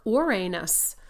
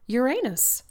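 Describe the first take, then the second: First: Uranus said as "or-AY-nus", slowly; alternate pronunciation. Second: Uranus said as "yer-AY-nus", high and loud; joke pronunciation. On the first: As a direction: stretch Uranus into "or-AY-nus" like Ouroboros. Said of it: "like the Ouroboros". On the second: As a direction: say Uranus like "your anus". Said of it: "or as some people call him". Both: Shown as a demonstration.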